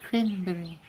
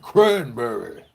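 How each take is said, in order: First: High, small mouse-like voice; mousy demo. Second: Loud, slow, chesty swagger; chest puffed out. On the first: Coach showing the weak way, mousy voice. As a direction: say it tiny and high. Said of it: "if you go like this". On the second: Coach showing the bold way, chest puffed out. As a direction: puff up your chest and boom it. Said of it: "puff your chest out a little bit". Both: Shown as a demonstration.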